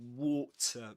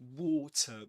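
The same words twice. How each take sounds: First: It is said with a British accent. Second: It is said with a British accent.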